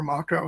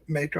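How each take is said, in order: First: Mako said MAH-ko; alternative pronunciation. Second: Mako said MAY-ko; long "ay" in the first syllable of Mako; first pronunciation. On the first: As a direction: open "ah" in the first syllable of Mako. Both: Shown as a demonstration. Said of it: "Mako or Mako".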